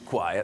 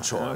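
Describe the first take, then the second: First: The word has an irregular, non-spelling-based pronunciation. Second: The word is pronounced as it is spelled. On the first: The speaker calls it right. "una pronuncia ovviamente ehm, eccezionale, irregolare" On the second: The speaker calls it wrong. "tutti dicono choir, ma in realtà non è così"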